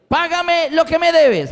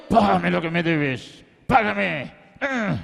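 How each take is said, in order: First: High, drawn-out forceful demand; demanding creditor. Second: Low, strained, slow threat; acted menace through effort; throttling creditor. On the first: Acted. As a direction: demand payment in a slow, raised cry. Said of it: "le ahogaba, diciéndole". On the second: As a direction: growl it while choking someone. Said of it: "Lo agarró por el cuello".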